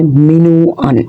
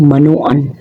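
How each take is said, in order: First: मिनोअन said with a clear short "i" after the m; मिनोअन, demonstrating the proper form; correct pronunciation. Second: मनोअन said with a plain short "a" after the m, the wrong way; मनोअन, demonstrating the incorrect everyday version; wrong pronunciation. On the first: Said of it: "जबकि दुरुस्त लफ्ज़ है". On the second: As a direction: say मनोअन as the common mistaken form. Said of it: "ये लफ्ज़ गलत है". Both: Shown as a demonstration.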